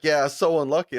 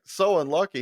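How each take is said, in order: First: Said in the usual way. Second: Incredulous echo. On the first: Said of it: "he's like". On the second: Retold or imitated. Friend repeating the driver's words back, questioning disbelief. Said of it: "I was like".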